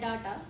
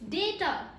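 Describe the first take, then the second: First: The first syllable is said 'dah'. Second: The first syllable is said 'day'. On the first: The speaker calls it wrong. "Wrong pronunciation" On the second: The speaker calls it right. "D A Y T A"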